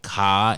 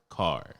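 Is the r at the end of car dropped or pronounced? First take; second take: dropped; pronounced. First: The final r sound is dropped. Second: The final r sound is pronounced. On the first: This is how locals in this area talk. The speaker calls it wrong. "if you out here saying car" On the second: This is the speaker's own normal way of talking. The speaker calls it right. "instead of car"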